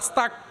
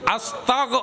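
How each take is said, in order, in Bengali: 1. শব্দটি k ধ্বনি দিয়ে শেষ হয়। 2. শব্দটি g ধ্বনি দিয়ে শেষ হয়। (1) "আস্তাক ক, অবাজি ক মানি শেষ" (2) "কন গ গ আস্তাগ"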